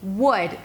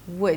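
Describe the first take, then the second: First: The word is said with a full, strong vowel. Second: The word is said softly with a reduced vowel. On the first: The speaker calls it wrong. "They're not" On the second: The speaker calls it right. "The consonants are soft and the vowel is reduced"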